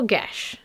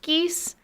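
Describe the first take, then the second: First: The word ends in a sh sound. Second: The word has a long ee and s. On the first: The speaker calls it right. "I want to use what Google says is the correct pronunciation" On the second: The speaker calls it wrong. "we all thought it was pronounced geese"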